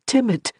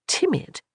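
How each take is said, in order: First: Said in the usual way. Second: Much higher, startled disbelief; incredulous echo. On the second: Acted. Johanna echoing the nickname in startled disbelief. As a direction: echo the word as if you can't believe it.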